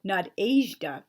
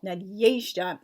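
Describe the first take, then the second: First: Nadezhda said slowly as the mistaken English version; slow, exaggerated wrong Nadezhda; wrong anglicized pronunciation. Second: Nadezhda said the proper Russian way; correct Russian pronunciation. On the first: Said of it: "not Nadezhda". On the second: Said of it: "the way I just said it". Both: Shown as a demonstration.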